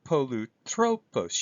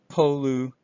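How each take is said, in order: First: Polutropos said slowly, voice going up on the omicron; slow acute demo. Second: Polutropos, voice rising on the omicron; acute rising pitch. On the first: Teacher repeating the Greek word slowly, rising accent. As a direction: slowly sound out Polutropos with the rise. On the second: Teacher demonstrating the acute accent, rising pitch. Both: Shown as a demonstration. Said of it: "You can hear my voice go up".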